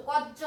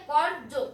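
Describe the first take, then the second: First: কর্য as "koj-jo", without any r; r dropped, j doubled. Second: কর্য as "kor-jo", r clearly heard; r sounded. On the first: Teacher showing the mistake, কর্য said "koj-jo". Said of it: "হবে না". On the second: Teacher showing the correct form, r sounded in কর্য. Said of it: "এখানে র উচ্চারণ হবে". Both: Shown as a demonstration.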